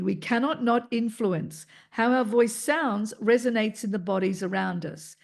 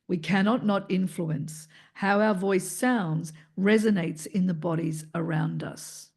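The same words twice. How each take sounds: First: The voice is in a middle pitch range. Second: The voice is in a low pitch range.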